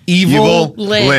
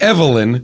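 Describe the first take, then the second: First: The name begins with a full word 'evil'. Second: The name begins with a short 'ev' sound. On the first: The speaker calls it right. "Evil Lyn. Hyphen Lyn" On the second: The speaker calls it wrong. "not Evelyn"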